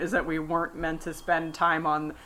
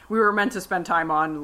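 First: Said in the usual way. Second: Self-correction, leaning on "were" in "we were meant to"; stress on were. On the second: Shown as a demonstration. Correcting herself to her co-host, stress on "were". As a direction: put the weight on "were" to fix the slip.

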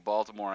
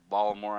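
First: Said in the usual way. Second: Baltimore squeezed to Bal-uh-more, the t dropped; local Baltimore. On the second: Shown as a demonstration. Podcaster echoes the way locals say Baltimore, Bal-uh-more. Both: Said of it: "as they say".

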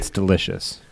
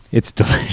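First: Said in the usual way. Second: Breathy whisper of "It's delicious". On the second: Real, not acted. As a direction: whisper it like a guilty pleasure.

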